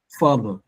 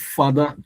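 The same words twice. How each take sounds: First: It has English stress with no tonal pitch. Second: It carries tones like a tonal language. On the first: The speaker calls it right. "There's just only one way to pronounce F A T H E R, and that's father" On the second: The speaker calls it wrong. "So there's nothing called father. You see, father is actually coming from the influence of our of our mother tongue"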